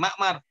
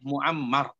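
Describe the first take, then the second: First: The name begins with ma, two syllables. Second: The name begins with mu, three syllables. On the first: The speaker calls it wrong. "maka bacanya jangan Ma'mar" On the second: The speaker calls it right. "Tapi bacanya Muammar"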